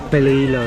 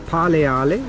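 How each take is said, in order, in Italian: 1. Si dice con suoni inglesi. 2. Si dice con suoni dell'italiano veneto. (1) "in inglese" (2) "detta così in Veneto"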